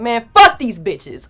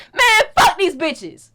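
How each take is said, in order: First: Slow, lightly voiced grumpy bodyguard, a bit louder; annoyed driver. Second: Slow, much higher mock grumble; grumbling driver. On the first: Hint of the driver ranting about the fans. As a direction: drag it out like an irritated big guy. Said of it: "He's like". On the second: Driver cursing fans as they drive off: slow, higher mock grumble. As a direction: sneer it like the fed-up driver.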